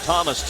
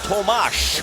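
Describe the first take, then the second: First: The name ends with a plain s sound. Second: The name ends with an sh sound. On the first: "That sounds like Thomas to you and me" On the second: "with like with an A S H at the end"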